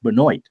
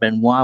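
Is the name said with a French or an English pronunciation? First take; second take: English; French. First: The name is pronounced the English way. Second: The name is pronounced the French way. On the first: "that's not how it's usually pronounced up here. It's pronounced Benoit" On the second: "since we have a lot of French-speaking people, that Benoit would be the natural way to pronounce that"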